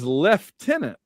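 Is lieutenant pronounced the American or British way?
British. It is pronounced the British way, leftenant.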